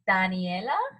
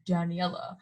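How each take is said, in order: First: The name is said with a Spanish pronunciation. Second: The name is said with an English pronunciation. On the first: The speaker calls it right. "my name is like Spanish, you know, so it's" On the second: The speaker calls it wrong. "He's like"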